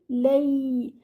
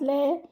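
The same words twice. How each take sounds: First: The L sound is said strongly. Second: The L sound is said weakly. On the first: The speaker calls it right. "your lean over here should be strong" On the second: The speaker calls it wrong. "not lay, not like that"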